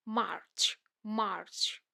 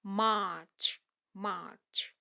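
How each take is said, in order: First: मार्च with a light r sounded; American pronunciation. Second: मार्च with no r, long "aa"; British pronunciation. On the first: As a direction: say मार्च as "marrch", r lightly curled. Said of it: "र को हल्के से pronounce करना है". (मार्च में हल्का र, American) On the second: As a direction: say मार्च as "maach". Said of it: "British में". (मार्च में र नहीं, British) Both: Shown as a demonstration.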